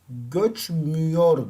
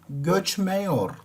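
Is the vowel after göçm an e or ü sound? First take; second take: ü; e. First: The vowel after göçm is a narrow ü. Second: The vowel after göçm is a wide e. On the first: The speaker calls it right. "Göçmüyor dersin" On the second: The speaker calls it wrong. "Göçmeyor demezsin ki"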